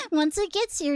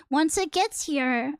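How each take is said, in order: First: Laughing at herself. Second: Said in the usual way. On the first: Real, not acted. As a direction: giggle through the repeat.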